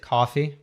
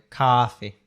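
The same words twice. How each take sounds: First: It is said in the speaker's own accent. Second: It is said in a New York accent. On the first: "I would say coffee with my accent" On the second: "they do like a ah, like a coffee"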